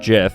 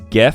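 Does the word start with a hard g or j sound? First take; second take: j sound; hard g. First: It begins with a j sound. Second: It begins with a hard g sound. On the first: The speaker calls it wrong. "not GIF, because GIF would be with the J" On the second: The speaker calls it right. "This is GIF"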